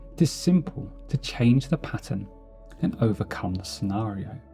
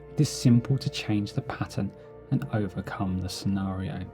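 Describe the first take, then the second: The two takes are said the same way.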